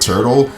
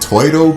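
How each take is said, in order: First: The word is said with its standard pronunciation. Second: The word is said with a childlike pronunciation.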